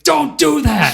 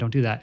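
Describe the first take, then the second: First: It is said in a sharp, angry tone. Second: It is said in a calm, gentle tone.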